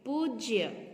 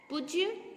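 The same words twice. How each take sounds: First: पूज्य with long oo, "POOJ-ya"; careful model "poojya" for पूज्य; correct pronunciation. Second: पूज्य with short u, "pujya"; wrong pronunciation. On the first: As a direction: stretch the first vowel of पूज्य. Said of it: "यहाँ बड़ी ऊ होगी". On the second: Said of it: "पूज्य नहीं". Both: Shown as a demonstration.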